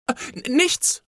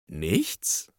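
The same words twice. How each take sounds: First: Put-on high, stammering child caught out; flustered, high-pitched denial; startled. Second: NICHTS asked softly and low, rising at the end; low, soft "Nichts" with a questioning lift; questioning echo. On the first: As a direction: stumble over it in a fright, voice jumping up. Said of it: "erschrak Anna". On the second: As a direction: echo "Nichts" back as a quiet, doubting question. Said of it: "fragte Mama". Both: A narrator's reading.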